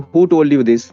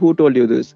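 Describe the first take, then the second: First: It is said in a high, sharp tone. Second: It is said in a low, soft tone.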